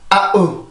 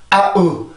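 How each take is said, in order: No difference in how they are said.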